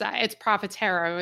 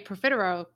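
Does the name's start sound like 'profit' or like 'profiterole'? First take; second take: profit; profiterole. First: It begins like the word profit. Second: It sounds like the dessert profiterole. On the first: The name is tied to profit. The speaker calls it right. "But really it's Profitero. It's more tied to profit" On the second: The name is taken to refer to a dessert. The speaker calls it wrong. "People say Profitero because we're like a dessert"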